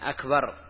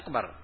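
First: The k sound is clearly pronounced. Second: The k sound is not clearly pronounced. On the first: The intended meaning is kept. The speaker calls it right. "حاول تأخذ الكاف أخذا صحيحا" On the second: The meaning of the word is changed. The speaker calls it wrong. "وإذا لم ينتبه للكاف غير اللفظ"

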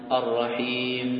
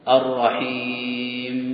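First: The long vowel is held for two counts. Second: The long vowel is drawn out for several counts. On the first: "يمد بمقدار حركتين" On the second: "له أن يمده إلى أربع حركات إلى ست عند الوقف"

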